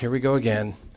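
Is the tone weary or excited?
weary. It is said in a weary, complaining tone.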